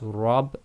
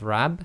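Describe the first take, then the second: First: The first consonant is heavy, with a back vowel. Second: The first consonant is light, with a front vowel. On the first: The speaker calls it right. "it's rab instead of rab" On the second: The speaker calls it wrong. "instead of rab"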